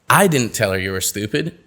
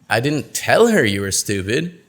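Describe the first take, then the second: First: The word 'I' carries the main stress. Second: The word 'tell' carries the main stress. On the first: Someone else said it. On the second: It was communicated some other way.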